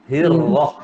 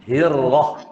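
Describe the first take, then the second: No difference in how they are said.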